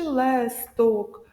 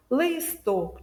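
First: «лесток» slowly, with a full е in the first syllable. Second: «листок» slowly, with a full и in the first syllable; clear и. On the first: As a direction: overpronounce the е in «лесток». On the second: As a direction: overpronounce the и in «листок». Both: Shown as a demonstration. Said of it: "е чи и".

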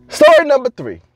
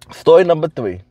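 First: Higher announcer-style title call; announced title, pitched up; announcing. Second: Said in the usual way. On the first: Shown as a demonstration. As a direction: call out the story title up high.

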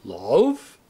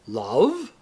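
First: Deeper, louder theatrical question; tragedian's lowered, rising question; a few notes deeper. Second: Questioning, theatrical "Love?", rising; tragedian's incredulous question on a rising tune; higher first take. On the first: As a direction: drop the pitch and intone it with drama. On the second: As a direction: ask it with wounded drama. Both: A narrator's reading. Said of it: "Then a few notes deeper".

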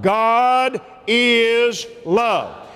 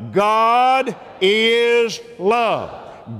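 First: Slow, steady God is love; slow repeat. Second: Very slow, stretched God is love; drawn out. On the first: The preacher repeats it with the church, slow and steady. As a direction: say it again, slowly and firmly. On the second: The preacher has the church say it out loud, very slowly. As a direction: lean into each word slowly. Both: Shown as a demonstration. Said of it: "Say it out loud".

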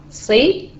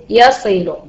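First: Said in the usual way. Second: Very slow, drawn-out مثل يصل to show syllables; slow syllable demo. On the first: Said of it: "يعني". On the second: Shown as a demonstration. Teacher showing students the syllables of يصل, very slow. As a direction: stretch each syllable of يصل slowly. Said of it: "يعتبر مقطعًا صوتيا واحدا".

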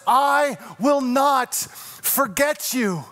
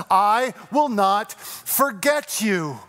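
First: Slow tender promise. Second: Very slow promise. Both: Acted. God's promise, slowed.

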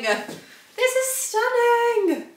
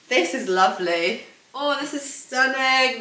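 First: Very high, drawn-out singsong rave; ecstatic gushing. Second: Slow, slightly raised gush; admiring. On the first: Vlogger raving about the blazer outfit, high singsong gushing. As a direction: stretch it out high, almost sung. Repeats the gush, far bigger. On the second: Vlogger admiring the blazer over the outfit, slow admiration. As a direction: savour the compliment, drawing it out. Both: Real, not acted.

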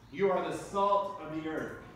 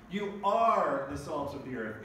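First: "you" stressed, falling tune. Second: "are" stressed, a bit louder. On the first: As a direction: lean on the word you. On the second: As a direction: lean on the word are. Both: Shown as a demonstration.

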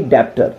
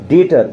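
First: "डेप्टर" mispronounced with a p or b before t; wrongly sounded B. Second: "डेटर" said as detter, no b; silent B. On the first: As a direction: sound the extra stop in "डेप्टर". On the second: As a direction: drop the b in "डेटर". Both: Shown as a demonstration. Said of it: "ना कि डेप्टर".

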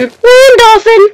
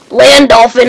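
First: Slow, much higher and louder land dolphin; stretched high shout. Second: 1 excited call. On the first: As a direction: drag out land dolphin in delight. Stretched repeat. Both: Real, not acted.

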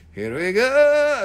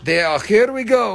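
First: A drawn-out, louder here we go; slow loud mock announcement. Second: Said in the usual way.

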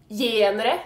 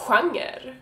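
First: "Genre" as YEN-reh; logical spelling pronunciation. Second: "genre" as HWANG-er; actual Swedish pronunciation. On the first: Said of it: "it would be logical to pronounce it genre". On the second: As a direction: say genre with a breathy hw and a ng in the middle. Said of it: "It is pronounced". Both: Shown as a demonstration.

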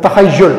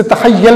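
First: "तखय्युल" ending in -yul, not -yal; corrected pronunciation. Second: "तखय्युल" ending in -yal instead of -yul; mispronunciation demo. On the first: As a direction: say "तखय्युल" with u in the last syllable, "ta-khay-YUL". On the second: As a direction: say "तखय्युल" wrongly with an a in the last syllable, "ta-khay-YAL". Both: Shown as a demonstration. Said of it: "इसे तखय्युल नहीं पढ़ना".

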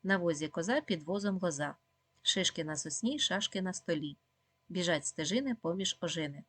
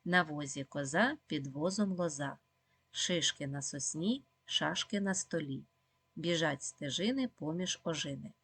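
First: Quick tongue-twister rattle; fast recitation for children; even faster. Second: Slow, careful tongue-twister reading; slow, clear recitation for children; slowly. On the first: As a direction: rattle the rhyme off at speed. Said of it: "А тепер ще швидше". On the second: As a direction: read each word deliberately and slowly. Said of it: "читаємо спочатку повільно". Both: Shown as a demonstration.

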